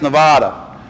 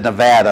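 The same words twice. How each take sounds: First: Nevada said with a broad ah, neh-VAH-da. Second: Nevada said neh-VAD-a, middle a as in cat; flat short a in Nevada. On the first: Preacher showing how he first said Nevada, broad ah. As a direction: stretch the middle of Nevada to VAH. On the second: Preacher correcting himself, Nevada with a flat a. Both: Shown as a demonstration. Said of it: "It's actually said Nevada".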